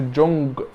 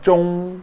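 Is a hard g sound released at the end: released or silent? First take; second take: released; silent. First: A hard g sound is released at the end. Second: The final g is kept silent inside the mouth. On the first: The speaker calls it wrong. "ما بقولش جونج" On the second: The speaker calls it right. "فبنقول جونغ"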